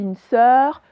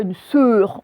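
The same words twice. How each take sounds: First: Sœur avec un E ouvert, comme dans œuf. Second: Sœur avec un E fermé, comme dans nœud; mauvais E fermé. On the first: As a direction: ouvrir la bouche sur le E de sœur. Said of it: "on dit une sœur". (sœur, E bien ouvert) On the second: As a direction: arrondir et fermer le E de sœur. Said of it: "On dit pas une sœur". (sœur prononcé à tort avec E fermé) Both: Shown as a demonstration.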